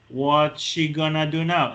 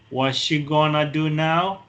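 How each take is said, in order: First: 'Going to' is reduced to 'gonna'. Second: The same.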